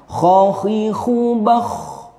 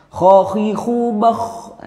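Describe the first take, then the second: Both takes have the same delivery.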